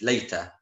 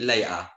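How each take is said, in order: First: It is said in a careful standard accent. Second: It is said in a local street accent. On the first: This is how it is taught in class. "in the class they say" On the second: This is how people say it on the street. "people speak with me"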